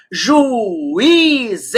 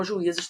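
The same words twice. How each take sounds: First: "juízes" stretched very slowly, ju-í-zes; syllable by syllable. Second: Said in the usual way. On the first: Shown as a demonstration. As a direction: split "juízes" into three long syllables, swelling on í. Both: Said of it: "Está sozinho na sílaba?".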